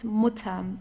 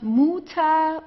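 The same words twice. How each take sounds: First: The first vowel is very short. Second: The first vowel is held long. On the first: The speaker calls it right. "very, very short" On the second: The speaker calls it wrong. "it's not Mutter"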